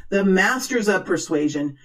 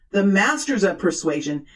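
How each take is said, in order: Both takes have the same delivery.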